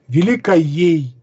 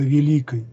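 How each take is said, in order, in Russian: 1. В окончании прилагательного есть лишний растянутый слог. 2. Окончание прилагательного короткое и обычное. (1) "иначе произносил окончания прилагательных" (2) "вместо"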